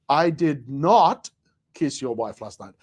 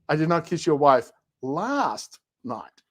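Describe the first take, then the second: First: The stress falls on the word not. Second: The stress falls on the word last.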